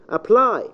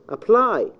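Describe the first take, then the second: No difference in how they are said.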